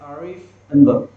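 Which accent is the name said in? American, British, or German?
German. The name is said with a German accent. "Germans. They were pronouncing it as"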